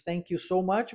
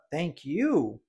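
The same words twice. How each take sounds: First: Said in the usual way. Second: "Thank you" with you weighted and falling; stress on you. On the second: Shown as a demonstration. Teacher returning the thanks, stress on you. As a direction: throw the thanks back, leaning on you. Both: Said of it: "mudar essa entonação e dar ênfase no you".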